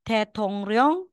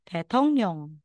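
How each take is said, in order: First: The last syllable starts with an r sound. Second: The last syllable starts with an n sound. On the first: The speaker calls it wrong. "instead na sasabihin mong tetongryong" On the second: The speaker calls it right. "magiging tetongnyong"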